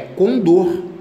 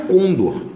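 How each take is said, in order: First: The stress falls on the final syllable. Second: The stress falls on the first syllable. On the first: The speaker calls it right. "é condor" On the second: The speaker calls it wrong. "Aqui não é condor"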